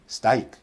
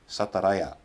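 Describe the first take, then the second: First: The r sound is left out of the cluster. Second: Extra vowels split the opening consonants into syllables. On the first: A non-native speaker drops a consonant. "they're just eliminating" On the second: A non-native speaker adds extra syllables. "adding extra vowels and thus extra syllables"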